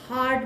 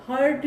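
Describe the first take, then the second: First: हार्ट with a long open "aa", like "haat"; broad "aa" in हार्ट; correct long AA. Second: हर्ट with a central "er" vowel, like "hurt"; wrong vowel. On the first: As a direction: model हार्ट with an open "ah" vowel. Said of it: "हार्ट बोलेंगे". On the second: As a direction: show the mistake, हर्ट as "hurt". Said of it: "हर्ट नहीं बोलेंगे". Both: Shown as a demonstration.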